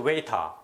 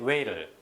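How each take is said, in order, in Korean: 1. t는 선명하고 끝의 r 소리는 사라집니다. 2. t는 부드럽고 끝의 r 소리는 납니다. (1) "이 영국식 발음이에요" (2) "이 미국식 발음이고요"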